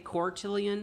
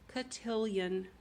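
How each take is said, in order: First: The first syllable has an R sound. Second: The first syllable has no R sound. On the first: The speaker calls it wrong. "I always want to say quartillion with an R" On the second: The speaker calls it right. "It's cotillion"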